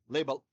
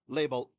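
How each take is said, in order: The two takes are said the same way.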